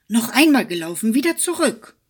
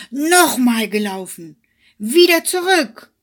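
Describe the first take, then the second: First: Fast loud call, jumping higher on wieder; eager, quick demand for another race. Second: Loud angry yell, higher on Wieder; furious shout. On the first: Hare demanding a rematch from the hedgehog, quick loud call. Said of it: "rief er". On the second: Hare beside himself with anger, screaming at the hedgehog. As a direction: scream it beside yourself with rage. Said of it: "war ganz außer sich vor Ärger und schrie". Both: Acted.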